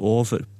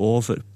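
First: It is said in an Eastern Norwegian dialect. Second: The same.

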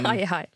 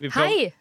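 First: The greeting is said flat and low-energy. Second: The greeting is said lively and energetic. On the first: The speaker calls it wrong. "du må jobbe med de der" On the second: The speaker calls it right. "Var det litt bedre?"

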